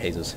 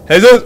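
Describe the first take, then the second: First: The name is said at normal volume. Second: The name is said loudly.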